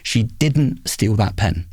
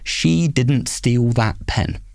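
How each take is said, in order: First: The stress falls on the word didn't. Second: It is said flat with no word stressed. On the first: "if I emphasise the second word" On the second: "So flat"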